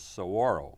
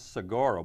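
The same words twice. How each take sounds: First: The G sound is left out. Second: The G sound is clearly pronounced. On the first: This is how the local people say it. "they say it's saguaro. They don't s- pronounce the G" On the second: This is the speaker's own way of saying it. "I pronounce saguaro"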